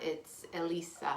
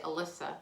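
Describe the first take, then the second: First: The name is pronounced like Elisa. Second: The name is pronounced like Alyssa. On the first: This is how the name is really said. The speaker calls it right. "but it's not. It's Elisa" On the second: This is how others often say the name. The speaker calls it wrong. "a lot of times people say Alyssa"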